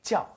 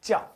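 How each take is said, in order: First: The word begins with a j sound. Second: The same.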